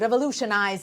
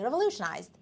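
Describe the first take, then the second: First: The final sound is strongly over-articulated. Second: The final sound is light and relaxed. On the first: The speaker calls it wrong. "Don't say revolutionized" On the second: The speaker calls it right. "take it easy"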